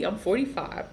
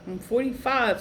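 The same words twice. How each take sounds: First: Said in the usual way. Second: "forty-five" higher and stressed; emphatic repeat. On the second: Real, not acted. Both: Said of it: "repeated louder".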